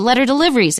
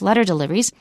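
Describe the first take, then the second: First: The stress falls on the word deliveries. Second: The stress falls on the word letter. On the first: The speaker calls it wrong. "We don't say de- letter deliveries" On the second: The speaker calls it right. "here's another compound. It's letter deliveries"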